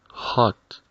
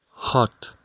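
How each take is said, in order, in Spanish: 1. La vocal suena como una 'a' abierta. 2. La vocal suena como una 'a' abierta.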